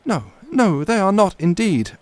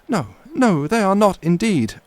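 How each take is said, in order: First: It is said in the young lady's voice. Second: The same.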